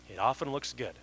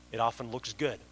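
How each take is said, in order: First: Often punched, the rest follows down; stress on often. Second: Good said last and hardest, falling; stress on good. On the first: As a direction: hit the word often and let good fall away. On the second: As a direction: lean on the word good, let the rest stay light. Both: Shown as a demonstration.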